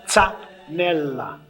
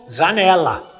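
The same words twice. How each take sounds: First: It is said the Italian way, with long L. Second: It is said with a Brazilian Portuguese sound. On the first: The speaker calls it right. "a pronúncia é Zanella. O L doppio" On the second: The speaker calls it wrong. "Aqui é brasileirou"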